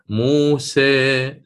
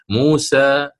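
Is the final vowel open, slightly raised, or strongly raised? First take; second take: slightly raised; open. First: The final vowel is slightly raised toward e. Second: The final vowel is open, with the tongue resting. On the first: "التقليل وهي الإمالة الصغرى... سيصعد وسط اللسان إلى فوق بعض الشيء" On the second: "اللسان وكأنه مبسوط من الوسط، وهذا ما يسمى بوضع الراحة"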